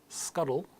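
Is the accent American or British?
American. The middle T sounds like a soft D. "in American English"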